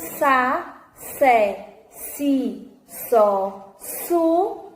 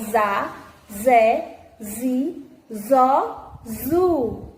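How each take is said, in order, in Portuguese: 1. As sílabas começam com um S sibilante. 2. As sílabas começam com um Z sonoro.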